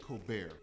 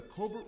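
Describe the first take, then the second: First: "Colbert" said koh-BEAR, final T silent; French-style pronunciation. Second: "Colbert" said with a sounded final T; anglicized pronunciation. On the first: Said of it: "I can never get it right". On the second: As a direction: say "Colbert" as COAL-burt. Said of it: "is it Colbert?". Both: Shown as a demonstration.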